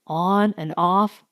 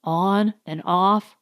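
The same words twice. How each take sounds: The two takes are said the same way.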